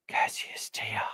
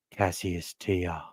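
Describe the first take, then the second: First: Breathy close-mic whisper of the name; ASMR whisper. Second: Slow, much softer, low murmur of a name; ASMR-style murmur. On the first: Podcaster whispering a player's name ASMR-style. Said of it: "A S M R?". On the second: Podcaster murmuring a junior's name ASMR-style. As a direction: savour the name, slow and hushed. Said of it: "What do they call that? ... A S M R?". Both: Shown as a demonstration.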